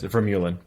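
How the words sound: The name is pronounced the American way. "nobody in America says that... so it's Vermeulen"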